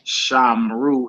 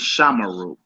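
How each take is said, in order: First: The m and r run together with no vowel. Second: A short vowel is heard between m and r. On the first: The speaker calls it wrong. "It's not uh Shamru" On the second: The speaker calls it right. "it's Shamaru"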